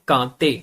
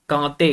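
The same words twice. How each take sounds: Both takes have the same delivery.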